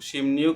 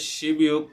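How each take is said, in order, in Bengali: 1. প্রথম দলটি M ধ্বনি দিয়ে শেষ হয়। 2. প্রথম দলটি B ধ্বনি দিয়ে শেষ হয়। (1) "আমরা শিমনিয়োগ শিমনিয়োগ উচ্চারণ করব" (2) "শিবনিয়োগ না বলে"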